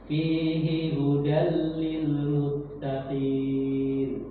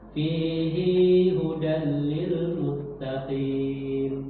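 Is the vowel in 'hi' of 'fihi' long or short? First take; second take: short; long. First: The vowel of 'hi' in fihi is short. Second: The vowel of 'hi' in fihi is lengthened. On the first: The speaker calls it right. "maka dia nggak boleh dibaca panjang" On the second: The speaker calls it wrong. "Nggak boleh mengikuti Al-Furqan enam puluh sembilan, nggak boleh"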